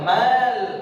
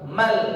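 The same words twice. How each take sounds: First: The vowel in 'ma' is drawn out long. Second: The vowel in 'ma' is short and direct. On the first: The speaker calls it wrong. "jangan sampai dibaca mal" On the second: The speaker calls it right. "tapi langsung mal"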